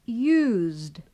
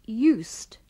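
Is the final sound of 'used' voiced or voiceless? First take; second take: voiced; voiceless. First: The ending is a voiced buzzing sound. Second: The ending is a voiceless hissing sound. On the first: It is the past tense of the verb use. "Dengan bunyi yang bersuara" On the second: It expresses a past habit. "diucapkan dengan bunyi yang tak bersuara"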